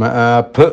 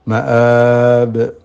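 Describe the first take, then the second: First: The final sound lets air escape. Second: The final b bounces without escaping air. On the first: The speaker calls it wrong. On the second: The speaker calls it right.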